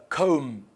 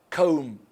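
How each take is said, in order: Both takes have the same delivery.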